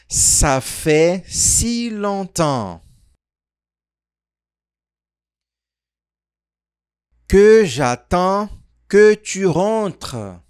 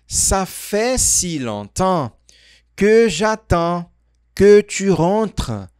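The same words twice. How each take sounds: First: The sentence is spoken slowly. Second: The sentence is spoken fast. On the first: "Mais devagar" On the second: "Falando mais rápido essa frase"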